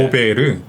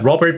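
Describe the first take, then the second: First: Korean-style, three syllables with a tapped r. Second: English-style, with the final t sounded. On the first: "우리나라로 하면 세 음절이잖아요" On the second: "영어 발음으로는"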